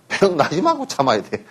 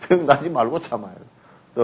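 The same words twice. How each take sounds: First: Said in the usual way. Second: Laughing repeat. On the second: Shown as a demonstration. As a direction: laugh gently as you repeat it.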